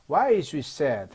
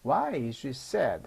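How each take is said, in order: First: Confident, louder question falling at the end. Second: Slow question with feeling, falling at the end. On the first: Teacher models the English question for learners, confidently. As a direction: ask it with assurance, dropping on "sad". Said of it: "자신 있게 말하면". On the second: Teacher repeats the question for learners, with feeling. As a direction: put emotion into "why", drop on "sad". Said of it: "감정을 넣어서 말해 봅니다". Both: Shown as a demonstration.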